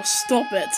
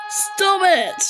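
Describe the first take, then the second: First: Said in the usual way. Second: Firmer repeat. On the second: Real, not acted. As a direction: insist the second time.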